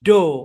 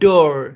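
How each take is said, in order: First: British accent, with no final r sound. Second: American accent, with the final r pronounced. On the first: "ব্রিটিশে ডো, কোনো আর উচ্চারণ হবে না" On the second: "আমেরিকানে ডোর"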